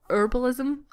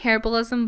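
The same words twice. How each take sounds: First: The word is said the American way. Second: The word is said the British way. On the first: "you guys in America pronounce it herbalism" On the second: "I'm saying herbalism"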